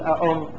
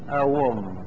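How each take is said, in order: First: The second hamza is kept as a glottal stop. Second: The second hamza is replaced by a w sound. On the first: "أننا نحققها، نقول أأم لا نبدلها" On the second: "نبدلها إلى واو فنقول أوم"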